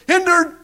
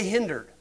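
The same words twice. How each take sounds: First: Called out high and louder like a tennis umpire; mock umpire call. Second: Said in the usual way. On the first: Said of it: "Go to Wimbledon". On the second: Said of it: "Why didn't he say".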